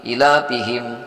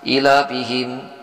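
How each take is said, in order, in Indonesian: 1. Vokal dalam 'ila' pendek. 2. Vokal dalam 'ila' pendek.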